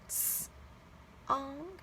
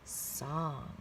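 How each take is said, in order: First: The word is said slowly, split into two parts. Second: The word is said quickly as one blended unit. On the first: "Let's read it" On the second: "Read it fast"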